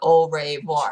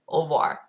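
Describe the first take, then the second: First: Every written letter is sounded out. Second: Some written letters are left silent. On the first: The speaker calls it wrong. "not au revoir" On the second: The speaker calls it right. "it's just au revoir"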